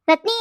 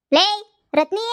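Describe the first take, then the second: First: Calling the name louder, rising at the end; louder repeated call with rising end. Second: Loud rising call across the house; louder call with rising end. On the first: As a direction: shout the name again to reach her. Calling daughter again, louder. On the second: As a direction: yell for her to come. Calling daughter from afar. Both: Acted.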